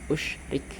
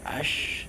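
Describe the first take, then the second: First: The word begins with an u vowel. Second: The word begins with an a vowel. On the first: "didomakan usyrik"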